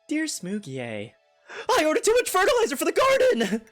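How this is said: It is read in an excited, panicked way.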